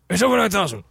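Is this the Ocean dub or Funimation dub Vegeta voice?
Funimation dub. It imitates the Funimation dub's Vegeta voice.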